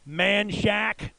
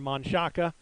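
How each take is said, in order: First: It is said the local Texan way, like 'Man Shack'. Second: It is said the standard way, as spelled.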